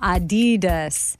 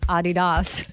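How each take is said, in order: First: The stress is on the second syllable. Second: The stress is on the first syllable. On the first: The speaker calls it wrong. "not Adidas" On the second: The speaker calls it right. "with a slight emphasis on the first syllable"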